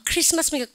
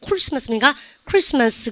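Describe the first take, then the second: First: "크리스마스" syllable by syllable, Korean style; plain CR. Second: "크리스마스" with a rounded k-r, like 쿠리스마스; blended CR. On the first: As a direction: say "크리스마스" with a separate 크-리. ("크리스마스"를 글자대로) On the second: ("크리스마스"를 쿠리처럼 둥글게) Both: Shown as a demonstration. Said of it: "이거 말고 두 개 더".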